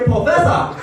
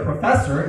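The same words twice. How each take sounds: First: It is said in a Hong Kong accent. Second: It is said in an American accent.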